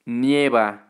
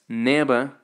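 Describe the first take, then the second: First: The first syllable has a 'y' glide: 'nye'. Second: The first syllable is a plain 'ne' sound. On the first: The speaker calls it right. "The correct way is nieva" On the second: The speaker calls it wrong. "Some people tend to pronounce this as neva, without the I"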